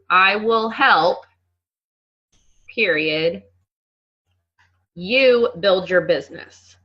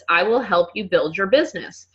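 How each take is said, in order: First: There is a clear break after help. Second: It is said without a pause after help.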